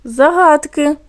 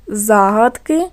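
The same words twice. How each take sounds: First: "загадки" stressed on ГАД, pitched higher; stress on middle syllable. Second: Slow "Загадки" stressed on ЗА; "Загадки" said as ЗА-гадки; stress on first syllable. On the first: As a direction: lean on the second syllable of "загадки". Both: Shown as a demonstration. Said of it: "Теж змінився наголос".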